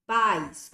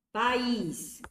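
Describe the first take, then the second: First: Pais said as one syllable, PAIS, louder; Pais without accent. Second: País stressed on the final í, pa-ÍS; País with accent. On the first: Teacher contrasting for students Pais as one syllable. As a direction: clip Pais into one beat. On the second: Teacher showing students País, stressed on the end. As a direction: say País with the weight on the last syllable. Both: Shown as a demonstration. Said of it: "Com acento, substantivo".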